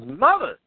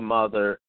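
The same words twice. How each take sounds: First: The word is said forcefully, like an exclamation. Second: The word is said flatly, without exclamatory force. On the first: The speaker calls it right. "definitely with the exclamation point" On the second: The speaker calls it wrong. "You have to say it right because it's annoying me"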